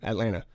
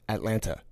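First: The second t sound is dropped, ending like nna. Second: The second t sound is clearly pronounced. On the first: This is how people from Savannah say it. "People from Savannah, it's just like it ends in N-N-A-H" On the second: This is how locals from Atlanta say it. "People from the A, they say Atlanta with the second T"

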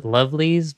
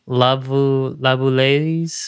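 First: The name is said like its English spelling. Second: The name is said unlike its English spelling. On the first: This is the speaker's habitual pronunciation. "I've been pronouncing it as Lovelies" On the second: This is the intended pronunciation. "I know it's like Lavulays or something. The intended way to pronounce it"

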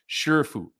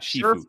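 First: The first syllable sounds like 'sher'. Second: The first syllable sounds like 'shee'. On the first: The speaker calls it right. "please say it correctly" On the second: The speaker calls it wrong. "Not Shifu"

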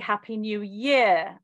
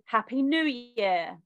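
First: It has the English word stress pattern. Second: It has the American word stress pattern.

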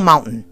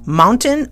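First: The middle T is swallowed. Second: The middle T is clearly pronounced.

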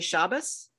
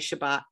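First: The word ends with an s sound. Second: The word ends with a t sound. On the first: The speaker comes from a traditional Eastern European background. "If you come from a traditional Eastern European background, you would say Shabbos"

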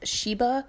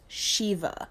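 First: The middle consonant is a b sound. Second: The middle consonant is a v sound. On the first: The speaker calls it wrong. "I thought it was pronounced Sheba" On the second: The speaker calls it right. "but it's pronounced Shiva"

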